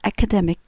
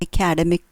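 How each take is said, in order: First: The stress is on the middle syllable. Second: The stress is not on the middle syllable. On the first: The speaker calls it right. "The stress is on the middle term" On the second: The speaker calls it wrong. "what was wrong was my pronunciation of this word"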